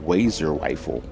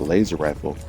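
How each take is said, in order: First: The first word starts with a W sound. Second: The first word starts with a clear L sound. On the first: "spoke with a lisp" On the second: "instead of it being called a laser rifle"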